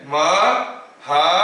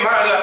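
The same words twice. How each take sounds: First: Maharaja slow, split into ma, ha, ra, ja; syllable by syllable. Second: Maharaja rattled off in one blur; very fast. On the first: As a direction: separate each syllable of Maharaja with a gap. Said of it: "हर एक sound के बीच में मैं कितना time gap लिया". (महाराजा, हर अक्षर के बीच ठहरकर) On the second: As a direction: rush Maharaja with no gaps between syllables. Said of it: "बहुत speed में महाराजा ऐसे बोल दूंगा". (महाराजा, बहुत तेज़, बिना रुके) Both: Shown as a demonstration.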